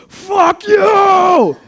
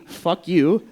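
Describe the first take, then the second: First: Long, very high full-force scream; freaked-out scream. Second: Higher, louder mock yell; raised-voice recap of a yell; retold outburst. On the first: Retold or imitated. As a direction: scream it out, drawn out and hysterical. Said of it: "Vietnamese guy goes". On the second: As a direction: replay the curse loudly without screaming. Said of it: "what they heard outside was".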